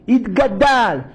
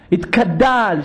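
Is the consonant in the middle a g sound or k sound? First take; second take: g sound; k sound. First: The middle consonant is a g sound. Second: The middle consonant is a k sound. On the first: The speaker calls it right. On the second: The speaker calls it wrong.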